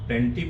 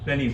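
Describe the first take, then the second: First: The word is said in full with the t. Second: The t is dropped, sounding like plenny. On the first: The speaker calls it wrong. "प्लेंटी पूरा नहीं बोलेंगे" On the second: The speaker calls it right. "प्लेनी बोलेंगे"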